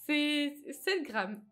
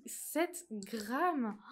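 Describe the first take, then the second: First: Slow and louder, mock indignation; exaggerated outrage. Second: Said in the usual way. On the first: Real, not acted. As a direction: drag out the outrage over the tiny amount. (indignation exagérée, lente et plus forte)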